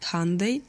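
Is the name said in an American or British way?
American. It is said the American way, rhyming with Sunday.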